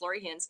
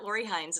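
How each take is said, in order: First: The surname's vowel rhymes with pins. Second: The surname's vowel does not rhyme with pins. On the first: The speaker calls it right. "it's pronounced like pins and needles" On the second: The speaker calls it wrong. "It's not Lori Hines"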